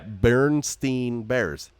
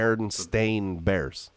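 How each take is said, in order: First: The name ends with a 'steen' sound. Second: The name ends with a 'stain' sound. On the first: This is how people commonly remember the name. The speaker calls it wrong. "That's how I say it too" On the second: This is the name's actual form. The speaker calls it right. "actually the no, it's B E R E N S T A I N"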